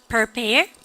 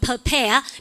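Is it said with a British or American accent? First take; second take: American; British. First: It is said in an American accent. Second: It is said in a British accent.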